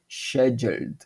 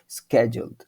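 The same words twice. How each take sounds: First: It begins with an sh sound, British style. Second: It begins with an sk sound, American style. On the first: "os britânicos aqui eles falam com som de sh" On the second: "Os americanos falam com som de sk"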